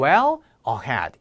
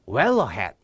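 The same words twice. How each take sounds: First: Every syllable gets an even, full beat. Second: The first vowel of ahead is shortened and linked. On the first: The speaker calls it wrong. "이렇게 발음하지 않았어요" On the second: The speaker calls it right. "이렇게 발음이 되는 거죠"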